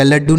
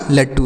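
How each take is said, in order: First: लड्डू with a doubled voiced d; voiced retroflex "dd" in लड्डू; wrong consonant in लड्डू. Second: लट्टू with a doubled t; hard retroflex "tt" in लट्टू; correct consonant in लट्टू. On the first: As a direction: say लड्डू as "laddoo", with d. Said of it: "लड्डू नहीं होगा". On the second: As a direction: say लट्टू as "lattoo", with t. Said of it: "लट्टू होगा". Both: Shown as a demonstration.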